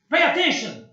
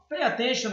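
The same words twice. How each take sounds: First: It is said in an angry, irritated tone. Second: It is said in a calm, friendly tone. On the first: It is a harsh, impolite order. "Eu tô nervoso, hein, cara?" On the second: It is a polite request. "Olha a diferença do tom de voz"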